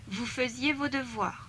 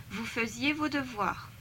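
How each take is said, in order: No difference in how they are said.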